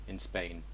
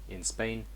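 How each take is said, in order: No difference in how they are said.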